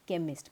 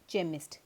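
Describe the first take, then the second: First: The word begins with a k sound. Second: The word begins with a ch sound. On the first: The speaker calls it right. "सी एच में क कब आता है" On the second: The speaker calls it wrong. "बहुत से लोग उसको read कर देते हैं केमिस्ट, जो कि गलत है"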